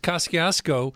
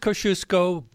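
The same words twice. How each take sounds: First: It is pronounced the local Brooklyn way. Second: It is pronounced the Polish way. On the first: This is how locals say it. "that's the way it's pronounced in Brooklyn" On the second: This is how Polish speakers say it. "if you're Polish"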